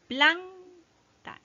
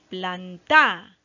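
First: The stress is on the first syllable. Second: The stress is on the second syllable. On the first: The speaker calls it right. "La sílaba tónica está en planta, en plan" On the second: The speaker calls it wrong. "a ver si le damos la fuerza a ta"

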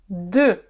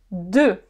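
The two takes are said the same way.

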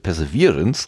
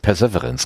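First: The stress falls on the 'ver' syllable. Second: The stress falls on the 'sev' syllable. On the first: The speaker calls it right. "dieser Virance muss betont werden" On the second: The speaker calls it wrong. "das ist eher so der Severin aus dem Kölschen Viertel irgendwie, aber das ist falsch"

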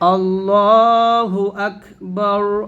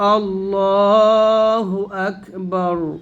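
Both takes have the same delivery.

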